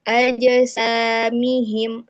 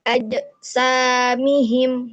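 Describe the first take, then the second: First: The j ends with a light bounce. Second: The j ends with an added glottal catch. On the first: The speaker calls it right. "itu kan dia memantulnya ringan" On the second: The speaker calls it wrong. "dia menambahkan huruf hamzah. Hamzah yang yang sukun"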